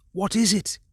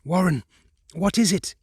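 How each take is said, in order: First: High, urgent frightened repeat; begging to know, panicking; terrified. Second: High, urgent frightened questioning; pleading for an answer in panic; terrified. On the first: Carter repeating into the transmitter, terrified. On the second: Carter shouting down the telephone, terrified. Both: Acted. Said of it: "Terrified, I continued to repeat".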